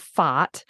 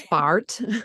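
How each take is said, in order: First: It is said in an Australian accent. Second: It is said in a non-Australian accent. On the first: "being Australian... they laugh at the way I say this word" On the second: "you guys say fart"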